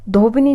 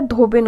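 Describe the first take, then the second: First: धोबिनी ending in a long 'nee'; wrong form. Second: धोबिन ending on a plain n; correct form. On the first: Teacher showing the mistake, final 'ee' on धोबिनी. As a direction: add an 'ee' at the end of धोबिनी. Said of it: "धोबिनी नहीं होता है". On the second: Teacher correcting the word, धोबिन stopped on n. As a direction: close धोबिन on 'bin', no final vowel. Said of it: "धोबिन होता है". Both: Shown as a demonstration.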